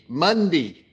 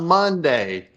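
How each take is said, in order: First: It is said in a broad Australian accent. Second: It is said in a plain, everyday accent. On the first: "It is Crocodile Dundee" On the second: "it's not Monday"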